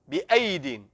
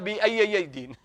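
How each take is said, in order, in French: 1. Il se lit avec un seul son ya. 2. Il se lit avec le son ya doublé. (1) "une seule lettre Y" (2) "ne l'a pas entendu chez un cheikh"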